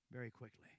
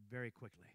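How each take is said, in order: Both takes have the same delivery.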